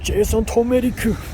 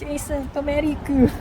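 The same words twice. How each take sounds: First: It is said in a put-on anime character voice. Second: It is said in a put-on cutesy uwu girl voice. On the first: "what if Jason Turmeric is an anime character?" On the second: "what if he is an uwu girl?"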